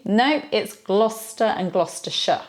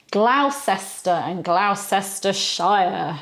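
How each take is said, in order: First: "Gloucester" as GLOSS-ter, "Gloucestershire" as GLOSS-ter-sher; correct pronunciation. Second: "Gloucester" said GLOW-ses-ter, slow; tourist mispronunciation. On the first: Teacher corrects the tourist reading. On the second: Teacher mimics tourists' reading. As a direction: read "Gloucestershire" like a tourist, every letter. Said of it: "how you hear some tourists". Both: Shown as a demonstration.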